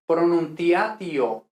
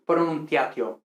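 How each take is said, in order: First: "pronunciatio" with vowels apart, pro-nun-ti-A-ti-o; hiatus. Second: "pronunciatio" run together as pro-nun-TYA-tyo; natural Spanish diphthongs. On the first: Teacher points to own usage, vowels in hiatus. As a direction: say "pronunciatio" splitting ti-a and ti-o. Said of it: "pronunciando todo el rato". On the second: Teacher asks why not the Spanish way, vowels merged. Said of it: "lo más natural para un hispanohablante". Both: Shown as a demonstration.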